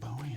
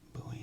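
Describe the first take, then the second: First: It is pronounced like the rock singer's surname. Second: It is pronounced like the basketball player's surname. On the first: The speaker calls it wrong. "not Bowie as in [name]" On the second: The speaker calls it right. "[name] as in [name]"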